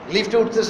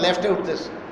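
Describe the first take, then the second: First: The first word has an 'i' vowel, like lift. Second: The first word has an 'e' vowel, like left. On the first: The speaker calls it right. "লিফট" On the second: The speaker calls it wrong. "লেফট"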